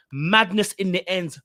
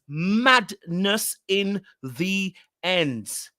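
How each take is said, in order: First: Said in the usual way. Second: Very slow, every word stretched out; drawn-out emphasis. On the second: Shown as a demonstration. Vlogger repeating her catchphrase, slowed right down. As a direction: drag it out for effect.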